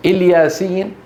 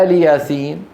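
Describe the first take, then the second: First: الياسين said il-yaa-seen with short first i; ilyaseen, starting on a short i; read as one word. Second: آل ياسين with long aa, aali yaaseen; two-word reading. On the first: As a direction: run الياسين together as a single word. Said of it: "هذه كلمة واحدة". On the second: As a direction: open آل ياسين on a stretched aa. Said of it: "فهي كلمتان". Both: Shown as a demonstration.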